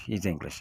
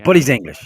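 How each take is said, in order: First: "He's English" said again, softer and dropped; quiet repeat. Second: Emphatic. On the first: Repeating to his friend that Piers Morgan is English, a soft, dropped aside. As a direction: let "He's English" fall away quietly. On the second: Insisting to his friend that Piers Morgan is English, a loud, punched out line. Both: Real, not acted.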